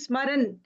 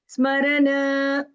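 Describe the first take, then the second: First: The word stops abruptly on the final n. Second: The final n fades out with a soft release. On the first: The speaker calls it wrong. "We are not abruptly stopping smaran" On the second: The speaker calls it right. "that stop like that"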